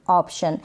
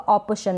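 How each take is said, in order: First: No vowel is sounded after the p. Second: A vowel is sounded after the p. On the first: The speaker calls it right. "नहीं" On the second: The speaker calls it wrong. "पूरा आएगा तो ऐसे read होगा"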